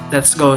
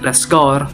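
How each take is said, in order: First: The vowel in 'go' is plain standard. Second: The vowel in 'go' sounds open and R-tinged.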